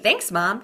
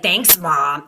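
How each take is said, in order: First: It is said in a calm, friendly tone. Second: It is said in an angry, irritated tone. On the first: The thanks is sincere and appreciative. The speaker calls it right. "but if you're neutral" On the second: The thanks is resentful and not sincere. The speaker calls it wrong. "if you get angry, that's going out there. And and they will hear it in your voice too"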